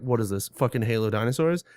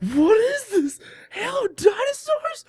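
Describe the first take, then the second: First: The tone is scornful and dismissive. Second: The tone is amazed and delighted. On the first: The game seems bad and pointless. "the quality of the game before wasn't good" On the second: The game seems wonderfully wild. "it was just really cool"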